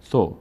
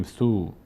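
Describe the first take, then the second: First: ثو with a short, clipped o; ثو with a brief vowel; short correct vowel. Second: ثو with the vowel stretched long; ثو with an overlong vowel; drawn-out wrong vowel. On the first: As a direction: say ثو crisply, vowel not stretched. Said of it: "زیاد کش نمیدیم". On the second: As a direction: drag out the o in ثو, the way not to say it. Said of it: "زیاد کش نمیدیم، نمیگیم". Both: Shown as a demonstration.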